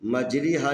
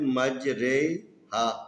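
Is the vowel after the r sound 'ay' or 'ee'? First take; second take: ee; ay. First: The vowel after r sounds like 'ee'. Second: The vowel after r sounds like 'ay'. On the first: The speaker calls it wrong. "मजरी हा नहीं पढ़ने" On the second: The speaker calls it right. "मजरी हा की जगह पर मजरे हा पढ़ेंगे"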